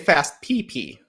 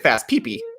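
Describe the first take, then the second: First: The two P's are said slowly and separated. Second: The two P's are run quickly together. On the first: It refers to the player's initials. The speaker calls it right. "nice and slow. You're separating the P P" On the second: It sounds like a crude word. The speaker calls it wrong. "if you say it like a like a fool"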